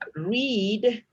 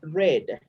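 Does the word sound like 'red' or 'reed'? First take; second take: reed; red. First: The vowel is long, like 'reed'. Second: The vowel is short, like 'red'. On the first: The action happens in the present. "Read is present" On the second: The action happened in the past. "Red is the pronunciation in simple past"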